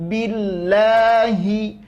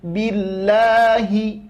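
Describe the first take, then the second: First: The H sound is pronounced clearly. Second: The same.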